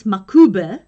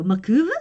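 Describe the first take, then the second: First: "makube" with a clear "b" in the last syllable; katakana reading. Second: "makube" said as ma-KOO-veh, questioning; tentative anglicised reading. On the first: Reading the name off the katakana, "makube" with a b sound. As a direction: say "makube" as ma-KU-beh, Japanese-style. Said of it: "Katakana says makube". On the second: Guessing the English name from katakana, "makube" with a questioning v sound. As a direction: turn the b of "makube" into a v, unsure. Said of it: "Katakana says makube, so makube?". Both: Shown as a demonstration.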